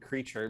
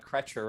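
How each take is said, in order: First: The first vowel is long, like in 'see'. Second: The first vowel is short, like in 'bed'. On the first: It matches the ordinary word the name plays on. The speaker calls it right. "rather than Creature" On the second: It follows the way the name is spelled. The speaker calls it wrong. "I did uh always pronounce uh, the other house elf as uh, Kretcher"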